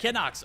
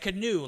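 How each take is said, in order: First: The name ends with a ks sound. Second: The name ends with an oo sound. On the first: This is the player's actual name. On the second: The name is jokingly turned into the boat word. "we said canoe, like uh, the the the you know you got the paddle"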